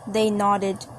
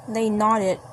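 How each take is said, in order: Both takes have the same delivery.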